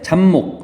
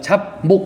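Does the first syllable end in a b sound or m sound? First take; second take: m sound; b sound. First: The first syllable ends in an m sound. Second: The first syllable ends in a b sound. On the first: The speaker calls it right. "발음할 때 잡목 하잖아요" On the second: The speaker calls it wrong. "잡목 이렇게 안 하잖아요"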